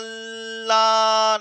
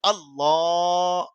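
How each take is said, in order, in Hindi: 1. शुरुआती स्वर को लंबा खींचा जाता है। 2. शुरुआती स्वर को छोटा रखा जाता है। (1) "अल्लाह नहीं है" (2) "बल्कि अल्लाह ये है"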